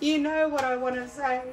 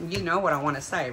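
First: High-pitched voice straight out of a giggle; high teasing squeak. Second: Said in the usual way. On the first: Real, not acted. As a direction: squeak it, bursting to say it. Repeats hint straight after laughing.

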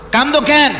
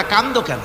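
First: Raised, higher-pitched demand; insistent question. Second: Said in the usual way. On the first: Retold or imitated. The Prophet asking Abu Huraira why he weeps, insistent question. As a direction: push the question out high and strong. Same question repeated forcefully.

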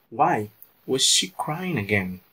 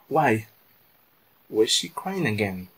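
First: Slow, careful repeat of why was she crying again; teacher repeating the sentence slowly for the class; slowed-down model sentence. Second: Said in the usual way. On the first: Shown as a demonstration. Slow, clear teacher's repeat. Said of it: "Porque ela está chorando". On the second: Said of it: "Então vamos lá".

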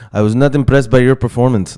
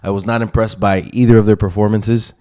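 First: A clumsy mock French Canadian accent; hammed-up French Canadian accent, a bit higher; terrible GSP accent. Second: Said in the usual way. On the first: Fight vlogger mocks GSP in bad French Canadian accent. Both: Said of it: "That was a terrible accent".

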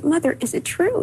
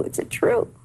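First: High, rising plea for the truth; disbelieving question. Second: Breathless whisper, the question fading out; whispered repeat. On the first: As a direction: ask as if you cannot believe it, voiced and high. Asking mother about brother's death. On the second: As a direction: let the voice drop to a whisper in shock. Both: Retold or imitated.

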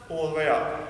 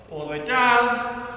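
First: Much lower, "up" short and falling; dropping instruction. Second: Slow, "down" held long and level; drawn-out instruction. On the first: Coach demonstrating the rise from a squat, "up" low and short. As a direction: drop low and finish on a quick "up". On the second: Coach demonstrating a squat's descent, "down" drawn out slowly. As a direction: stretch "down" through the whole movement. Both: Shown as a demonstration. Squat demo, voice follows movement.

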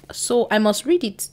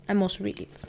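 First: Said in the usual way. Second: Much softer, almost under her breath; quiet to herself. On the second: Real, not acted. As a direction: repeat it softly to yourself. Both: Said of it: "repeats the line".

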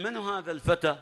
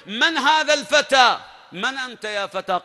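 First: Said in the usual way. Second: Mocking challenge. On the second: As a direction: sneer down at the young man, drawing it out. (سؤال ساخر بصوت أعلى وأبطأ) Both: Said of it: "يسأل".

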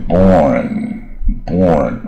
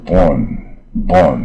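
First: Very slow "born" with a strong curled r; curled-tongue born. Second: Slow "born" without the r colour; "born" drawn out, tongue left uncurled. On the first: Teacher shows how the r curls "born". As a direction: roll "born" slowly, tongue curled back. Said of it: "卷舌啊". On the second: Teacher shows "born" with no r sound. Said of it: "如果没有这r的话". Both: Shown as a demonstration.

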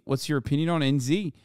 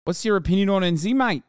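First: Said in the usual way. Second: Mock Kiwi accent. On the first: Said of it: "What's your fucking opinion on N Z?". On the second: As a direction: play a rowdy Kiwi bloke in a New Zealand accent. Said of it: "That's what he said".

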